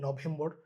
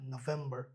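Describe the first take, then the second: First: It is said with a Bengali-style pronunciation. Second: It is said with an English-style pronunciation. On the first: The speaker calls it wrong. "আমরা যদি বাংলায় বলি নভেম্বর, ওরকম হবে না" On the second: The speaker calls it right. "এটা নভেম্বর"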